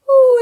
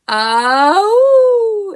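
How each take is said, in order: First: It is high and light, in head voice. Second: It is low and full, in chest voice. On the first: "and this is head voice. It's way up high" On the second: "I'm starting in chest voice"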